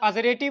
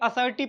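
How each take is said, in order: First: An extra vowel splits the s and r. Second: The s and r come without an extra vowel. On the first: The speaker calls it wrong. "इसको असरेटिव नहीं पढ़ेंगे" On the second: The speaker calls it right. "बल्कि असर्टिव पढ़ेंगे"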